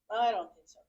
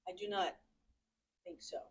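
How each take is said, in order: First: The words 'do not' are contracted together. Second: The words 'do not' are said separately. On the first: The speaker calls it wrong. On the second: The speaker calls it right.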